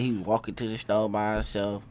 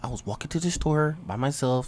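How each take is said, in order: First: It is said in the speaker's own voice. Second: It is said imitating another man's voice.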